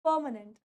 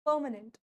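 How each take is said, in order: Both takes have the same delivery.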